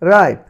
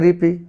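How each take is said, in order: First: The vowel sounds like 'eye' with no final vowel. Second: The vowel sounds like 'ee' with a final vowel. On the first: The speaker calls it right. "হয়েছে কি রাইপ" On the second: The speaker calls it wrong. "তাহলে এটি হওয়ার কথা রিপি বা রিপে, কিন্তু না"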